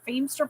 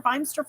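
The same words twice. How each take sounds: First: "Feimster" said as FEEM-ster; trying a pronunciation. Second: "Feimster" said as FINE-ster; trying a pronunciation. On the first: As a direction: say "Feimster" with a long ee. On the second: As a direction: say "Feimster" with an eye vowel. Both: Shown as a demonstration.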